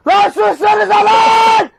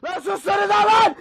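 First: Loud, drawn-out yell; angry shout. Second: Said in the usual way. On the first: Real, not acted. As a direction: bellow it at them. Yelling at noisy people.

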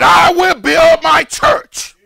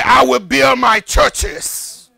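First: Higher, louder, slow "I will build my church"; triumphant preached quotation; emphatic correct quote. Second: Slow, even "churches"; mock misquote at an unraised level; wrong version, plural. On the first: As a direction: proclaim "church" as one, singular. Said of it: "He said". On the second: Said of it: "He didn't say". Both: Shown as a demonstration.

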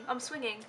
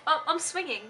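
First: Much softer, said half to herself; softer repeat. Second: Said in the usual way. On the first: Real, not acted. Repeating to herself while swinging, much softer. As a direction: drop it to a soft aside. Swinging on chair, says twice.

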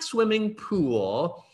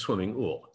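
First: Said in the usual way. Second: "ool" said with no p, like "swimming pool" minus its first sound; pool without the p. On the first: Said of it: "except it's swimming ool". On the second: Shown as a demonstration. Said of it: "kinda like swimming pool".

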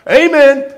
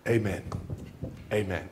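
First: High, loud Amen like a command. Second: Low, soft amen, fading on the repeat; quiet closing amen. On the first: Retold or imitated. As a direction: bark the word to halt the donkey. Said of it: "how do I make it stop". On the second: Shown as a demonstration. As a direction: settle it down gently. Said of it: "to say".

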